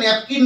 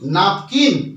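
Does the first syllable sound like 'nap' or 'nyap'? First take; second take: nyap; nap. First: The first syllable has a 'y' glide: nyap. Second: The first syllable is plain 'nap' without glide. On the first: The speaker calls it wrong. "But এটা কিন্তু উচ্চারণটা ন্যাপকিন নয়" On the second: The speaker calls it right. "উচ্চারণটা হবে নাপ"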